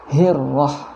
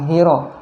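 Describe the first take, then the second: First: The r sound is held and doubled. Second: The r sound is short and single. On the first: The speaker calls it right. "di huruf ra juga tasydid ya" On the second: The speaker calls it wrong. "Jangan hiro ya"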